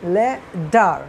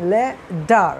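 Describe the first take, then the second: First: It has a d-like t and an r. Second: The same.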